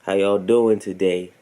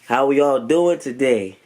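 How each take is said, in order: First: It is said with low energy. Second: It is said with high energy.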